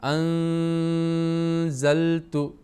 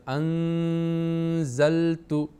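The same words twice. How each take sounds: Both takes have the same delivery.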